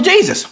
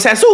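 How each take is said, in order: First: "Jesus" said JEE-zus, J as in jeep; English pronunciation. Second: "Jesus" said hay-SOOS, J as H; Spanish pronunciation. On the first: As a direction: stress the first syllable of "Jesus", English style. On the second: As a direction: say "Jesus" the Spanish way, stressed on the end. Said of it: "J is H". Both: Shown as a demonstration.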